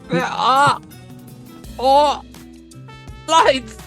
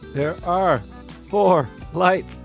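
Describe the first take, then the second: First: The line is delivered with theatrical drama. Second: The line is delivered plainly, without drama.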